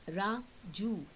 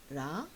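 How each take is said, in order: First: Said in the usual way. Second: Ra-ju broken into two beats; teacher splitting the name Ra-ju into syllables; split into syllables. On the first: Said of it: "two syllables". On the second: Shown as a demonstration. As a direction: chop Ra-ju into Ra and ju. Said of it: "So there are two syllables".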